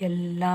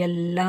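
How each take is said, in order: No difference in how they are said.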